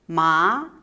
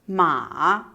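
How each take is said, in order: First: The pitch rises from middle to high. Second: The pitch dips low and then rises. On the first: "Tone two, / It's a raising tone" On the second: "Tone three, / It's a falling, raising tone"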